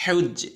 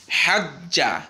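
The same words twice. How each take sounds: First: হেউজ্জে said with a light bounce on the j; sakin bounce demo. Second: হাজ্জা with a doubled, held j; tashdid demo. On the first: Teacher shows the sakin bounce, clear recitation. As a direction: show the little bounce on the sakin. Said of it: "দেখেছেন?". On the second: Teacher contrasts tashdid with sakin, clear recitation. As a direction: press the doubled j firmly. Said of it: "এখানে একদম স্পষ্ট". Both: Shown as a demonstration.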